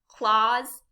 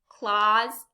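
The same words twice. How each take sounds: The two takes are said the same way.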